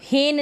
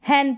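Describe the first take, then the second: First: The vowel is close, like 'ay' in 'say'. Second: The vowel is open, like 'a' in 'hat'. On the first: The speaker calls it wrong. "इसको हेन नहीं" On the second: The speaker calls it right. "हैन पढ़ेंगे"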